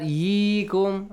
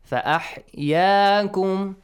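First: The vowel after the y is a close 'ee'. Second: The vowel after the y is an open 'a'. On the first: The speaker calls it wrong. "not yeekum" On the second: The speaker calls it right. "that's again a sound, okay? Not ye sound"

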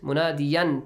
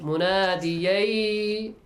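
First: The final n sound is clearly kept. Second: The final n sound merges into the next sound. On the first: "tanween plus ya" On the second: "Merge the sound"

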